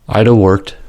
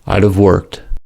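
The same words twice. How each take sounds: First: The final consonant of have is dropped. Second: The final consonant of have is pronounced.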